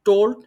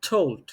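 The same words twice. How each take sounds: First: The T fully blocks the airflow. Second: The T lets a little air escape. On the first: The speaker calls it wrong. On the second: The speaker calls it right.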